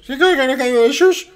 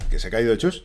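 First: Very high, loud comic squeal; squeaky hammed-up film quote; film dialect impression. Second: Said in the usual way. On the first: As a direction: mimic the silly movie voice at full pitch. Film line in silly high voice.

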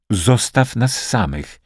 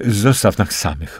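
First: Slow, insistent repeat, higher in pitch; impatient. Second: Said in the usual way. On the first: A narrator's reading. Liza repeats her request to Rudy, impatient. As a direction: press the request with measured impatience. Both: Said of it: "powtórzyła niecierpliwie".

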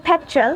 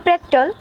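First: "পেট্রোল" with a puffed English p; British pronunciation. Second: "পেট্রোল" the Bengali way, with an o in the last syllable; Bengali pronunciation. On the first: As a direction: say "পেট্রোল" as English petrol, weak last vowel. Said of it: "ব্রিটিশরা বলে". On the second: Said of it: "আমরা বলি". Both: Shown as a demonstration.

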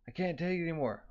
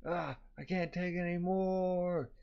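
First: High, mildly frantic cry; berserk outburst. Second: High, slow, drawn-out mock wail; berserk wail. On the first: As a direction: play a character at breaking point. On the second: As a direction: stretch the last word into a whine. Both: A narrator's reading.

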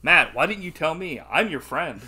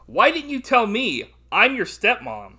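First: Loud mock appeal to a friend; mock weird line. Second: High, loud, slow hammed-up reading; mock weird line. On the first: Host parodying the line as a friend, mock appeal. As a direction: act out the stilted line loudly, a little raised. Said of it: "I wouldn't be like". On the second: Host quoting the stepmom's weird line, hammed-up. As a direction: draw out the film line in loud mock disbelief. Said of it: "this was a weird line".

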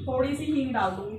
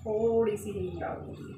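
First: Said in the usual way. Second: "थोड़ी" stretched on its first vowel, then falling away. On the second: Real, not acted. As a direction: linger on "थोड़ी" for a tiny amount. Repeats, stressing the tiny amount.

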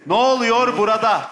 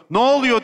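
First: Drawn-out slow-motion Ne oluyor burada. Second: Said in the usual way. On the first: Shown as a demonstration. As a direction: stretch Ne oluyor burada slowly. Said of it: "ağır çekimde söyleyeceksin". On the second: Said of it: "Ağır çekim geliyorsun".

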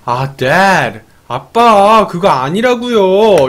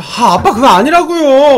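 First: Mildly fed-up protest to dad; hammed-up annoyance, last word drawn out slowly; annoyed daughter. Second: High, exasperated mock protest to dad; hammed-up fed-up whine, rising in pitch; increasingly angry daughter. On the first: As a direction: push back at dad, a touch irritated. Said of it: "애니가 완전 빡친 거야". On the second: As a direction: act out a daughter losing patience, pitch jumping up. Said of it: "점점 더 빡쳐서".

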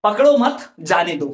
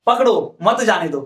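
First: पकड़ो मत together, a break, then जाने दो; pause after मत. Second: पकड़ो alone, a break, then मत जाने दो; pause after पकड़ो. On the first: Teacher showing the comma's meaning, pause after मत. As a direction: slowly, stop after मत before जाने दो. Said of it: "यहां पर विराम चिन्ह लगा दूं". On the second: Teacher moving the comma for students, pause after पकड़ो. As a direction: slowly, stop after पकड़ो, join मत to जाने दो. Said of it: "ये विराम चिन्ह यहां पर लगाता". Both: Shown as a demonstration.

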